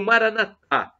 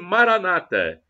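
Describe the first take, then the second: First: The stress falls on the last syllable. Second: The stress falls before the last syllable. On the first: This is how Catholics say it. "com a tônica na última sílaba, como dizemos nós católicos" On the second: This is how evangelicals or Protestants say it. "como dizem os evangélicos ou protestantes"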